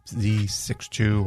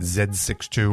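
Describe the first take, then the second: First: The letter Z is pronounced 'zee'. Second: The letter Z is pronounced 'zed'. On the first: This is the speaker's own way of saying it. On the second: This is how most of the rest of the world says it.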